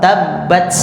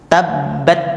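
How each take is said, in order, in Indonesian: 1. T terakhir mengalir dengan desis langsung. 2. T terakhir berhenti tanpa ada udara yang keluar. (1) "ini sudah mengalir duluan" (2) "Sifat yang pertama sudah betul, tapi sifat mengalirnya belum dapat"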